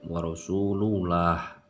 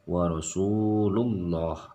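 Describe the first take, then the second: First: The Allah syllable is said light, like 'lah'. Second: The Allah syllable is said heavy, like 'loh'. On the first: The speaker calls it wrong. "Jadi tidak ... Tidak baca a" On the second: The speaker calls it right. "dibaca loh ya"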